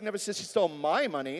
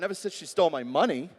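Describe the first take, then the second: First: The word 'my' carries the main stress. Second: The word 'money' carries the main stress. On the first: The stolen money belonged to someone else. "It was somebody else's money" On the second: She stole something else. "Well, maybe she stole my heart"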